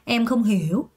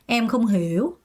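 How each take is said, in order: Both takes have the same delivery.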